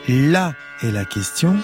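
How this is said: The stress falls on the first word, là. The crux of the problem has been located here. "Si j'appuie le premier « là »"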